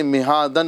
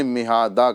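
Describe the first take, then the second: First: مہادن closing on an n; مہادن spoken with its tanween; tanween ending. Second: مہادا ending in a long open aa; مہادا with tanween turned to long aa; alif ending. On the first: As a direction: say مہادن with final -dan sounded. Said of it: "نہ کہتے ہوئے". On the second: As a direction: say مہادا without any final n. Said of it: "ہمیں مہادا کرنا ہے". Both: Shown as a demonstration.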